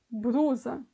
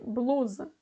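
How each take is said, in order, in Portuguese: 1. A segunda consoante é um som de R. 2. A segunda consoante é um som de L. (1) "A presença do som do R ao invés de L" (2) "ao invés de blusa"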